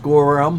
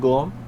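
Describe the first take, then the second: First: The name is said with two syllables. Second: The name is squeezed into one syllable. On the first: The speaker calls it right. "I kept trying to say it was Gorum" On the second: The speaker calls it wrong. "they couldn't quite get the um part. They kept stopping at by Gorm"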